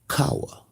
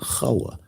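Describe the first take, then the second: First: The name begins with a hard K sound. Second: The name begins with a soft H sound. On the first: The speaker calls it wrong. "there is no hard K" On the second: The speaker calls it right. "Listen to how I said it"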